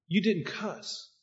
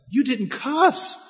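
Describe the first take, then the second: First: Amazed. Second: High, slow, marvelling repeat; amazed. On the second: Coworker marvels the preacher didn't swear: high, slow amazement. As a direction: stretch it out in disbelief, pitched up high. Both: Retold or imitated. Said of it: "he was amazed about what".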